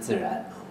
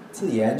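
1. 第二个音节以 r 音开头。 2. 第二个音节以 y 音开头。

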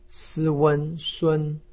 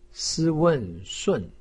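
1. 音高保持高而平。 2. 音高从高处急剧下降。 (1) "一声" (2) "四声"

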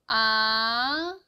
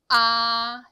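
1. 음이 낮은 데서 높은 데로 부드럽게 올라갑니다. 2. 처음부터 끝까지 음이 변하지 않고 평평하게 유지됩니다. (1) "밑에서 위로 아주 스무스하게 올라갑니다" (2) "처음부터 끝까지 이 음이 똑같은 음이어야 된다는 거"

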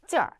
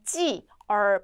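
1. 두 음절을 빠르게 붙여서 하나처럼 발음합니다. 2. 두 음절을 끊어서 따로 발음합니다.

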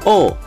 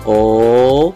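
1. Nadanya turun tajam dari tinggi ke rendah. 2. Nadanya naik dari rendah ke tinggi. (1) "nada keempat itu dibanting" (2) "nada kedua naik"

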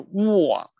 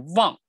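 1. 这个字开头是圆唇的 w 音。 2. 这个字开头是嗡嗡振动的 v 音。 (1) "不是望" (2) "是望，那也是用你的上牙碰你的下唇出这个v 这个音"

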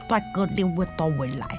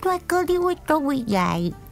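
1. 这是用厚重、大舌头的方式说的。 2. 这是用高亢、童声的声音说的。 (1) "另外一个就是大舌头这样的" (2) "另外一个是超级娃娃音的台语"

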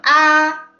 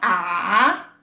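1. La sílaba se dice en el primer tono. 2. La sílaba se dice en el tercer tono. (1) "primer tono" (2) "tercer tono"

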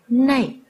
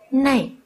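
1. Từ này kết thúc bằng âm trượt 'ei'. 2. Từ này kết thúc bằng âm trượt 'ei'.

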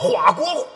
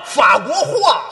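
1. 第一个词以h音开头。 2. 第一个词以f音开头。

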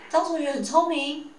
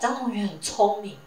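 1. 用疑问的语调来说。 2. 用感叹、强调的语调来说。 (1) "变成疑问句" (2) "就变成一个很惊叹句"

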